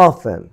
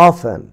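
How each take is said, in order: No difference in how they are said.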